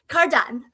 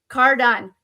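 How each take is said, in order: First: It is read in an imitated, put-on voice. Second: It is read in the speaker's normal voice.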